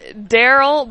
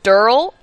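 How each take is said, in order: First: The name is said in its usual form, Daryl. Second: The name is said in a clipped form, Durl. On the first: This is the name as usually written. "His name is Daryl" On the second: This is how its owner says the name. "but he pronounces it Durl"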